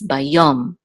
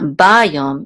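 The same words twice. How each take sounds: First: The stress is on the last syllable. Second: The stress is on the first syllable. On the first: The speaker calls it right. "the accent mark is on under the yud" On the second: The speaker calls it wrong. "it's not"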